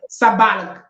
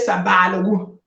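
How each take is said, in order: First: It is said with short vowels, Talensi style. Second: It is said with long vowels, Mamprusi style.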